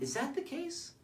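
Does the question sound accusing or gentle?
gentle. The question is asked in a soft, gentle tone. The asker assumes good intent and invites an explanation. The speaker calls it right. "See that? It's completely different"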